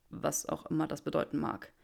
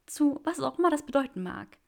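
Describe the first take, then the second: First: Draco's voice. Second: Higher, louder joyful woman; Granger's voice. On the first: Draco unsure what it means, lower. Draco's line, later echoed. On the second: Granger echoes Draco's words, higher and joyful. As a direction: answer him high and bright with joy. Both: Acted.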